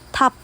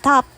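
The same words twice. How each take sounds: First: The first consonant has a puff of air. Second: The first consonant has no puff of air. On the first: "top is said with an H" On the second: "instead of top"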